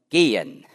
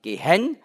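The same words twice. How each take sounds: First: The stress is on the first syllable. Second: The stress is on the second syllable. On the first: The speaker calls it right. "sondern gehen. Im Deutschen ist das sehr oft die erste Silbe" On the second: The speaker calls it wrong. "man sagt nicht gehen"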